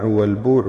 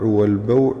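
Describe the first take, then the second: First: والبوع with a long "oo", wal-boo'; damma on the ba. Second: والبوع with an "aw" glide, wal-baw'; fatha on the ba. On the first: Reader listing al-Nawawi's word forms, والبوع with a long u. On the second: Reader listing al-Nawawi's word forms, والبوع with an aw sound. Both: Shown as a demonstration. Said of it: "بالضم والفتح".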